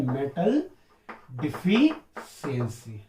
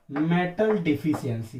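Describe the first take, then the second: First: Very slow drawn-out answer. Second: Said in the usual way. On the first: Shown as a demonstration. Teacher repeating the term for pupils, slow and drawn out. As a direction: stretch deficiency out slowly and lower. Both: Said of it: "कौन सा है?".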